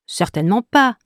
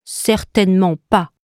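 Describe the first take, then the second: First: Higher little note, contradicting; middle note. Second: Lightly voiced low note, firm refusal; lower note. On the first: Middle note contradicts the high one, lifted refusal. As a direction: refuse with a lift in the voice. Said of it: "répond Mi". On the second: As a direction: contradict at once in the lower character voice. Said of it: "répond aussitôt Do". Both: A narrator's reading.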